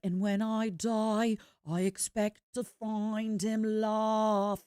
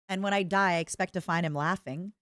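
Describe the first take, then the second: First: It is said in a British accent. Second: It is said in an American accent.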